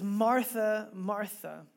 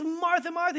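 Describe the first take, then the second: First: Said in the usual way. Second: Martha, Martha called out high, as one urgent shout; raised-pitch mock shout; calling out. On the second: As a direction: call her name to stop her in her tracks. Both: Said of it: "a Hebrew way of shouting".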